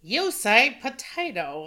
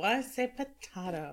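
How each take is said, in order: First: "potato" said puh-TAY-toe; potato with long A. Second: "potato" said puh-TAH-toe; potato with broad A. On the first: Co-host quoting the old potato line, long-A potato. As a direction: say "potato" with an AY in the middle. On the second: Co-host answering the old potato line, broad-A potato. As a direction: say "potato" with an AH in the middle. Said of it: "I say potato". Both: Shown as a demonstration.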